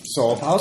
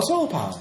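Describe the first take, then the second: First: Said in the usual way. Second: "solar" squeaked much higher. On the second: Acted. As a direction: squeak out "solar power" high. Repeating the pitch phrase.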